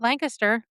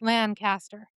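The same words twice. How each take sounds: First: It is said the local Pennsylvania way. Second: It is said the way outsiders say it. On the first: The speaker is from Pennsylvania. The speaker calls it right. "pronounce it Lancaster, like we do, that's usually how you say it in Pennsylvania" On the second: The speaker is not from Pennsylvania. The speaker calls it wrong. "Everywhere else, it's Lancaster"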